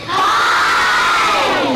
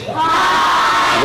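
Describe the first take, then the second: First: High shouted puppet hi; puppet yell. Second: Breathy high puppet hi; a high voiceless little shout; puppet whisper-shout. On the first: Dummy shouts hi to the kids, high puppet yell. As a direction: belt it out in the dummy's voice. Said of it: "Hey, you don't have to yell". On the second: Dummy answers the officer again, high whispered puppet shout. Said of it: "Now, I know you heard that". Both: Acted.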